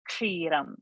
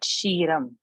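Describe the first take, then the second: First: The word begins with a ksh sound. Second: The word begins with a sh sound. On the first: The speaker calls it right. "So this was expected" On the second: The speaker calls it wrong. "So not"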